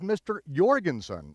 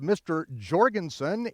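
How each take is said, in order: First: The name begins with a Y sound. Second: The name begins with a J sound. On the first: The speaker calls it right. "It is the Y sound" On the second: The speaker calls it wrong. "you don't speak of"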